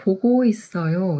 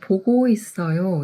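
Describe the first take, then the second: First: The second syllable is pronounced go. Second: The second syllable is pronounced go.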